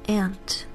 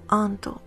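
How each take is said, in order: First: It is said in a native English accent. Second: It is said in a Japanese accent. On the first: "I'm gonna say it first in English" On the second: "Japanese is"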